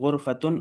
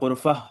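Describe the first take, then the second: First: The word ends in a full -tun syllable. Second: The word ends in a plain open vowel. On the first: This is the word's full underlying form. "ये असल में गुरफ़तुन और हुजरतुन है" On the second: The speaker stops after the word. "रुकते हैं तो वो हा हो जाता है"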